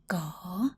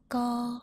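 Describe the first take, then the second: First: The pitch dips down then rises. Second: The pitch stays level and fairly high.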